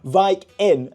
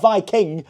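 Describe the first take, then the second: First: It is said as two parts, Vik and Inn. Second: It is said as the ordinary word Viking. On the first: It is a pun naming an inn. The speaker calls it right. "as in uh, V I K and then I N N" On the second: It is the ordinary word for the Norse people. The speaker calls it wrong. "Not Viking"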